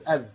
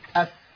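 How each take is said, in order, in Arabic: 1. الحرف مجهور، مثل v الإنجليزية. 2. الحرف مهموس، مع احتكاك نفسي. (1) "اذا لم ناتي فيها بصفه الهمس ستكون حرف زي انجليزي" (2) "اما لو اتيت بالهمس"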